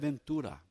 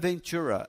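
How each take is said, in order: First: Said in a Brazilian accent with nasal vowels. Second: Said in an American accent without nasal vowels. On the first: The name is said as its owners say it. The speaker calls it right. "é Ventura" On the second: An English speaker is mispronouncing the name. The speaker calls it wrong. "Não é Ventura"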